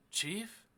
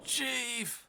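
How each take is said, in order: First: Higher, rising, tentative "Chief?"; acted searching call, lifting at the end; questioning call. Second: High, falling cry of "Chief!"; drawn-out high call of dismay; alarmed cry. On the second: Acted. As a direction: exclaim "Chief" in acted alarm, pitched way up. Character finds the chief.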